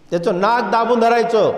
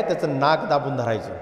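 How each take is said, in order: First: "दाबून" recalcado, más fuerte; repítelo marcando "दाबून" con fuerza; emphatic repeat. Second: Said in the usual way. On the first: Shown as a demonstration.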